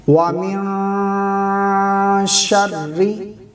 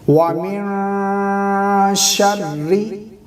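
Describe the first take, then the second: No difference in how they are said.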